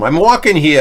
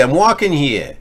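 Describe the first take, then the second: First: Loud New York street shout on "I'm walking here"; New York accent. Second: New York accent, a notch calmer on the repeat of "I'm walking here". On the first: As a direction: call out "I'm walking here" like an annoyed New York pedestrian, louder and higher. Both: Shown as a demonstration. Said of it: "with a New York accent?".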